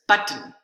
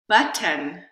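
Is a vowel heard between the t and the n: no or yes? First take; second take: no; yes. First: No vowel is heard before the n. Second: A short schwa vowel is heard before the n. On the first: "the second one did not" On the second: "the first one had a schwa"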